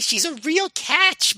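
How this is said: It is said in a put-on old-woman voice. The speaker calls it right. "That's also a bad impression, but it's closer"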